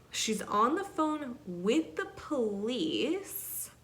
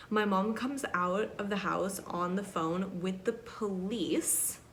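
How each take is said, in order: First: "with the police" drawn out, higher and slow; slow, higher emphasis on "the phone with the police"; dramatic repeat. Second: Said in the usual way. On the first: Retold or imitated. Repeats the line for dramatic effect.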